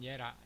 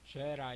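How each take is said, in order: First: The name begins with a Y sound. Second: The name begins with a J sound. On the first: This is the Middle Eastern pronunciation. "중동식 발음은 예라" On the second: This is the English-style pronunciation. "영어식으로는 죄라"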